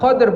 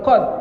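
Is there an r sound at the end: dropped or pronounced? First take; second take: pronounced; dropped. First: The final r sound is clearly pronounced. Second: The final r sound is dropped. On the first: The speaker calls it right. "Dal itu qol-qolah, sehingga qadr" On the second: The speaker calls it wrong. "bukan qad"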